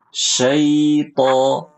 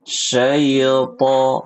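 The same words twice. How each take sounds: First: The ai glide is held fully before to. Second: The ai glide is cut short before to. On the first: The speaker calls it right. "Harusnya syaito" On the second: The speaker calls it wrong. "Bukan syaito, bukan"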